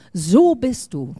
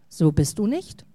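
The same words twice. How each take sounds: First: "So" drawn out and hit loud; stress on So. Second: "So" lower and unforced, "nicht" rising at the end; gentle rebuttal. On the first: Acted. Family pinning a label on you, "So" stressed hard. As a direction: pronounce a verdict, punching a long "So". False label, then rebutted. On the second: Real, not acted. Preacher denying the false label, "nicht" gently rising. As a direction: counter the label, lifting "nicht".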